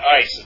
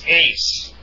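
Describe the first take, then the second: First: The vowel sounds like the word 'ice'. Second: The vowel sounds like the word 'ace'. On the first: The speaker calls it wrong. "it's not ice" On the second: The speaker calls it right. "it's ace"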